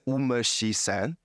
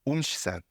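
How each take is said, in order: First: A full vowel sounds after the first syllable. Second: The vowel after the first syllable is dropped. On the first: The speaker calls it wrong. "it wouldn't say umeshi-san" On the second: The speaker calls it right. "vowels after that get weakened or deleted"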